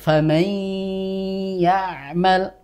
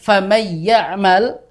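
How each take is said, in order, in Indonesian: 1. Dengung sengau yang panjang ditahan sebelum y. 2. Huruf n menyatu sepenuhnya tanpa dengung sengau. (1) "kita beri tempo panjang tadi ... namun secara sifat gunnahnya masih tersisa" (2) "maka berarti menjadi idgham kamil"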